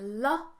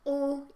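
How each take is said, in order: First: The consonant is followed by a short 'uh' vowel. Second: The consonant is held with no vowel after it. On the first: The speaker calls it wrong. "you say l" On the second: The speaker calls it right. "instead of saying l"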